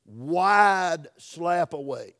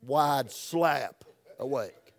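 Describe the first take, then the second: First: Slow, drawn out and loud; slow for emphasis. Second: Slow, drawn out again; slow for emphasis. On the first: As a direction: stretch each word out for emphasis. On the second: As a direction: lean on SLAP, stretch it out. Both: Shown as a demonstration. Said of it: "that's for emphasis".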